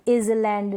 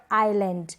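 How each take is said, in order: First: Island with the s sounded, "iz-land"; wrong pronunciation. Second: आइलैंड with no s sound; silent S. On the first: Teacher showing the misreading, island said "iz-land". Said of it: "नहीं". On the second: Teacher modelling the silent S, आइलैंड as "eye-land". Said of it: "यहाँ पर एस को pronounce नहीं कर रहे". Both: Shown as a demonstration.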